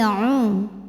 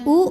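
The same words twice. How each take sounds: First: The vowel starts from the middle of the throat. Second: The vowel is plain, without throat constriction. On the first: The speaker calls it right. "U masukin tenggorokan tengah ya" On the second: The speaker calls it wrong. "bukan u"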